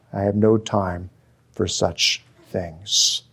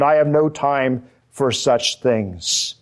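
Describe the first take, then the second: First: Repeated lower with scorn; scornful. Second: Said in the usual way. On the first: Shown as a demonstration. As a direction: let the contempt sink into the words. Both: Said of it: "another scornful statement".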